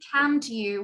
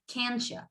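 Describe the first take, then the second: First: The word 'you' is said in full. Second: The word 'you' is reduced to 'ya'. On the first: "instead of can't you" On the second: "we would say something like can't ya"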